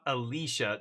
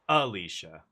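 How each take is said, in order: First: The stress is on the middle syllable. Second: The stress is on the first syllable. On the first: The speaker calls it wrong. "Not Alicia, not the emphasis on the middle syllable" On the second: The speaker calls it right. "but on the first one"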